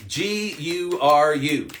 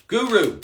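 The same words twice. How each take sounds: First: G U R U, each letter slow and separate; spelled out letter by letter. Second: Said in the usual way. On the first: Shown as a demonstration. Coach spelling the word for live viewers, slow letter by letter.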